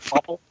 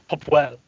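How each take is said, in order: First: The W sound in the middle is dropped. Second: The W sound in the middle is pronounced. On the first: The speaker calls it wrong. "I like how you're not pronouncing the W" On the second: The speaker calls it right. "It's Popwell"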